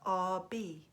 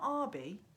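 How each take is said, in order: First: The stress is on the second syllable. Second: The stress is on the first syllable. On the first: It is heard as a person's initials. The speaker calls it right. "like the initials" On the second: It is heard as a surname. The speaker calls it wrong. "with the stress at the start of the name"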